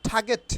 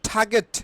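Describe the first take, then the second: The two takes are said the same way.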